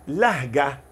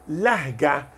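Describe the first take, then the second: The two takes are said the same way.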